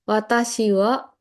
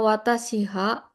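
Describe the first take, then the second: First: The particle is said with a w sound. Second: The particle is said with an h sound. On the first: This is the easier, usual way to say it. "Watashi wa itu lebih mudah diucapkan" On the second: This needs the mouth to open more. "Ha itu ada kecenderungan untuk ngebuka mulut"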